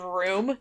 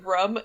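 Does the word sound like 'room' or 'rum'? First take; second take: room; rum. First: The word sounds like 'room'. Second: The word sounds like 'rum'. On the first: "instead of room" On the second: "that's how everybody up here says it"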